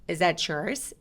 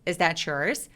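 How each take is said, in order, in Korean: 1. t는 yours와 이어지며 ch 소리가 나요. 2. t는 yours와 이어지며 ch 소리가 나요.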